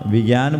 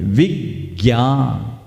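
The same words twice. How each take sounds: First: The first syllable is not stressed. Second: The first syllable is stressed. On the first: The speaker calls it wrong. "विज्ञान बोलते हैं क्या?" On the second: The speaker calls it right. "ज्ञ संयुक्त है, इसलिए इसको बोलते हैं"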